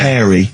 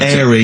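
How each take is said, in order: First: The word starts with an h sound. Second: The word starts without an h sound. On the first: "obviously means hairy" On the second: "I noticed both of you there dropped the H"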